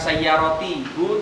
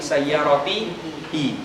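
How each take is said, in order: First: The word ends with an 'hu' sound. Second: The word ends with an 'hi' sound. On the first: The speaker calls it wrong. "bukan saya roti hu" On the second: The speaker calls it right. "tapi saya roti hi"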